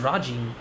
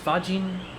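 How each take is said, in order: First: The name begins with an R sound. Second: The name begins with an F sound. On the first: The speaker calls it wrong. "I thought it was Rajin. I was saying that wrong the whole time" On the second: The speaker calls it right. "it's Fajin"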